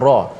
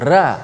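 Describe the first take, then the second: First: The r is said heavy and thick. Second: The r is said light and thin. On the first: The speaker calls it right. "ra tebal, kita sebut ra" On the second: The speaker calls it wrong. "kita tak sebut ra"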